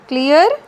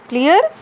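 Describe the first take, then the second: No difference in how they are said.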